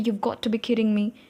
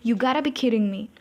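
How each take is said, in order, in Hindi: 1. Got to दो पूरे शब्दों की तरह बोला जाता है। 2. Got to एक शब्द में मिल जाता है, gotta। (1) "बहुत लोग बोलते हैं" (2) "मेरी जो हालत है वो है"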